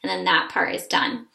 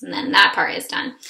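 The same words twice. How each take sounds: First: THAT pushed up with a rise; stress on that. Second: THAT leaned on again, louder; stress on that. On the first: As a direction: lean on that in that part is done. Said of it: "So sun, dun". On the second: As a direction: hit that in that part is done. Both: Shown as a demonstration.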